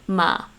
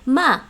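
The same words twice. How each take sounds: First: The syllable is held level at a middle pitch. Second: The syllable is held level at a high pitch. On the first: "my mid-level in Cantonese would be like what I'm speaking now" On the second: "my high level for Cantonese would be ma"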